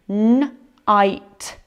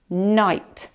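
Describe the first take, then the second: First: N-ite with n held apart from ite; segmented syllable. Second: Night said as one smooth blended syllable. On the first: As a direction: break n-ite into n, then ite. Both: Shown as a demonstration. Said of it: "Let's have a look together".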